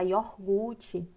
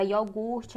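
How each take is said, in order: First: Iogurte with the R moved forward; common mispronunciation. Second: Said in the usual way. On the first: Shown as a demonstration. Teacher showing how we say iogurte, mispronounced as "iorgute". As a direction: say iogurte as "ior-GU-te". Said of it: "a gente fala iogurte". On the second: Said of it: "a palavra iogurte".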